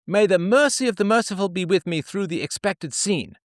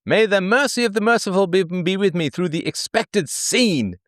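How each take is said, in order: First: Much higher, prim and devout; pioneer woman praying. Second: Mock pioneer prayer. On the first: Acted. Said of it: "diary entry of a pioneer woman". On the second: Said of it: "this is what she's doing".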